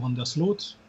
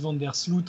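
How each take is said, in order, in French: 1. Le nom se prononce avec des sons néerlandais. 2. Le nom se prononce avec des sons français. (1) "si on la faisait un peu à la néerlandaise" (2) "on dit Van der Sloot aussi, nous"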